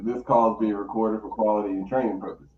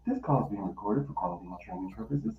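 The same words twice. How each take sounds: First: Fast, lower automated-message read; recorded announcement. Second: Fast, soft, lower robotic read; recorded announcement. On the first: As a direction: rattle it off like a recording. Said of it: "I hit 'em with the". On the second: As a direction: mimic the automated message quickly. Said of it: "And I'm like, Boop". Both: Retold or imitated.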